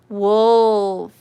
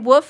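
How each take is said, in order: First: The word is said with a clear L sound. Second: The word is said without any L sound. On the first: "pronounce the L" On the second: "I say woof like a dog"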